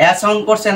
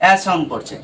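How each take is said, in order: Both takes have the same delivery.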